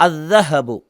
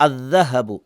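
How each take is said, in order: The two takes are said the same way.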